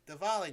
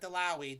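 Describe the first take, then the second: First: The word is said as Diwali. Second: The word is said as Dalawi. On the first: The speaker calls it right. "It is Diwali" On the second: The speaker calls it wrong. "not Dalawi"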